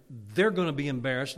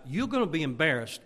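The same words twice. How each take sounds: First: "they're" punched loud in contrast; stress on THEY'RE. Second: "you're" punched against "they're"; stress on YOU'RE. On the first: Preacher turning embarrassment on the visitor, stress on "they're". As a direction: land hard on "they're". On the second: Preacher contrasting who will be embarrassed, stress on "you're". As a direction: lean hard on "you're". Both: Acted.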